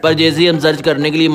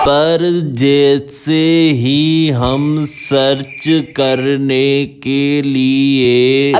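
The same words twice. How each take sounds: First: It is said quickly, rushing the words. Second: It is said at ordinary speed and volume. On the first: The speaker calls it right. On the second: The speaker calls it wrong.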